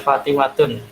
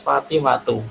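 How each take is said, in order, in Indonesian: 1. Kata ini berakhir dengan bunyi n. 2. Kata ini berakhir dengan vokal, tanpa n. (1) "tidak boleh dibaca Fatimatun" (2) "harus Fatimatu"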